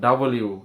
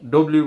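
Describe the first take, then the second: First: The first vowel is an open a sound. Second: The first vowel is a short o sound. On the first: The speaker calls it right. "এটা ডাব্লিউ" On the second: The speaker calls it wrong. "ডব্লিউ বলবো না"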